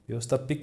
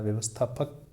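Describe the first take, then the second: First: The last vowel is i. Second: The last vowel is a. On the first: The speaker calls it wrong. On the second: The speaker calls it right.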